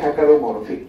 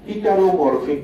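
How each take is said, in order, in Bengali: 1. প্রথম সিলেবলটি 'ha'-এর মতো শোনায়। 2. প্রথম সিলেবলটি 'hi'-এর মতো শোনায়। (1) "আসল উচ্চারণ হচ্ছে" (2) "বইয়ের ভাষায়"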